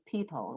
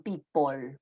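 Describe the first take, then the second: First: The last syllable has a schwa vowel. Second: The last syllable has an O vowel. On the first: "they say people with a schwa" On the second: "with the O sound in pot"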